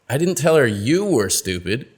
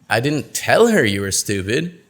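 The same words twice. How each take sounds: First: The word 'you' carries the main stress. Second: The word 'tell' carries the main stress. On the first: Someone else was called stupid. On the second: It was communicated some other way.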